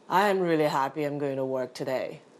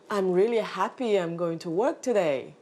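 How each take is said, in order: First: It sounds sarcastic and unwilling. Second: It sounds sincerely happy.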